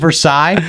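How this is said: It is said with the French pronunciation. It names the French palace and treaty. "how you actually say it in French"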